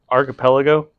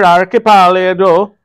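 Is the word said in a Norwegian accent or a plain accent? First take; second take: plain; Norwegian. First: The word is said in a plain accent. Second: The word is said with a Norwegian accent.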